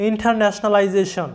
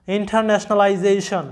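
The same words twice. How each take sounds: First: Said in the usual way. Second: ইন্টারন্যাশনালাইজেশন said slowly, syllable by syllable; slow the word down so every syllable is heard; slower careful repeat. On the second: Shown as a demonstration. Teacher slowing the word down for students, deliberate. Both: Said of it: "এই শব্দের উচ্চারণটা আসতেছে কি?".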